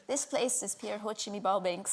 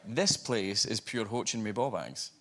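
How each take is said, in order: First: Softer, imitated Scottish accent; copying Scottish phrase. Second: Broad Scottish, slow and deliberate; Scottish phrase. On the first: Co-star trying out the Scottish phrase, imitated Scottish accent. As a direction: parrot it quietly in Scottish. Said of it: "I tried a Scottish phrase". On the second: Shown as a demonstration. Actor testing a Scottish phrase on the host, slow broad Scottish. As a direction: deliver it slowly in thick Scottish. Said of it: "I tried a Scottish phrase on her".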